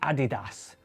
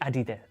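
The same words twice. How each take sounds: First: It is said with a British pronunciation. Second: It is said with a non-British pronunciation. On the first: "in the U K, we say Adidas" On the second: "We don't say Adidas"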